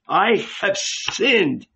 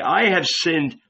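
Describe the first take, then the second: First: Higher and slow, "I have sinned" drawn out in anguish; anguished cry. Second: Said in the usual way. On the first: Retold or imitated. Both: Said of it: "and cry".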